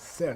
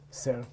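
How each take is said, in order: First: The word is said with a high tone. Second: The word is said with a low tone. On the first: It means gold. "What's a high tone S?" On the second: It means to claim. "This is low tone"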